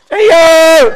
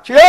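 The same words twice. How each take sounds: First: Very high, full-force shout; piercingly high, drawn-out prayer cry; louder shouted cry. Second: Group-style prayer shout; shouted cry. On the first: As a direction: shout it out as loud as you can. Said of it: "더 크게, 더 크게". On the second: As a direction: cry out to the Lord on request. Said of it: "한번 있는 대로 한번 소리 질러봐". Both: Shown as a demonstration.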